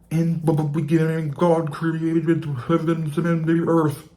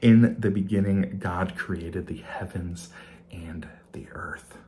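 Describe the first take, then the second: First: It is said in a bubbly underwater voice. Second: It is said in a normal speaking voice.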